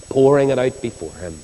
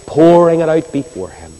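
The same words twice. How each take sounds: First: Said in the usual way. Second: Pouring said high and loud, falling at the end; emphatic cry. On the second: Real, not acted. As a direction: lean hard on pouring it out before Him. Preacher repeats phrase for emphasis.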